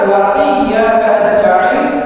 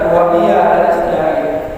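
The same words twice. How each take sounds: First: The doubled consonant is held long. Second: The doubled consonant is said short. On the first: The speaker calls it right. "Sama juga" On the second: The speaker calls it wrong.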